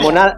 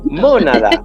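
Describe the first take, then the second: First: The stress is on the second syllable. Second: The stress is on the first syllable. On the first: It means what monkeys do. "la monada es lo que hacen los monos" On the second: It means a particle of the soul. "si le pones tilde al principio es mónada"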